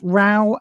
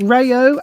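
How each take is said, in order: First: The name is one syllable rhyming with cow. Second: The name is said as two syllables, ray-oh. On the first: "as in uh, having a row with your wife" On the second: "as in R A Y O"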